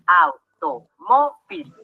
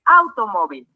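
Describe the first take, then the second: First: "Automóvil" muy lento, au, to, mó, vil; separado en sílabas. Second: Said in the usual way. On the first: Shown as a demonstration. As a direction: separa cada sílaba de "Automóvil" con una pausa. ("Automóvil" silabeado despacio y más grave) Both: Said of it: "Vamos a separarlo en sílabas".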